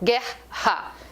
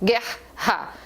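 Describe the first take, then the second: Both takes have the same delivery.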